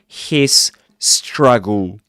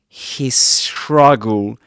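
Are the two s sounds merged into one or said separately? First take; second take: separately; merged. First: The two s sounds are said separately. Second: The two s sounds merge into one. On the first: The speaker calls it wrong. "rather than his struggle" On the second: The speaker calls it right. "produce these two s- sounds as one"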